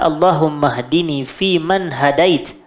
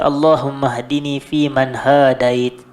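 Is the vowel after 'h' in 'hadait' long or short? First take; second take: short; long. First: The vowel after h in hadait is short. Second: The vowel after h in hadait is long. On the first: The speaker calls it right. "Lafaz yang tepat" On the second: The speaker calls it wrong. "Dia panjang. Ha tu dia ada alif lepas tu"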